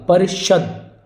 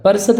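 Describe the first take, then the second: First: परिषद with sh, "parishad"; correct sh sound. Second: परिषद with plain s, "parisad"; mistaken s sound. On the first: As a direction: put a clear sh in परिषद. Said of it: "तो ये correct होगा". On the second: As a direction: say परिषद with s in place of sh. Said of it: "नहीं होता". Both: Shown as a demonstration.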